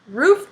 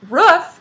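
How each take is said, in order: First: The word does not sound like a bark. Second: The word sounds like a dog's bark. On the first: It names the top of a house. The speaker calls it right. "Roof is the thing that's on a house" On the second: It sounds like a dog's bark. The speaker calls it wrong. "Roof is what a dog says"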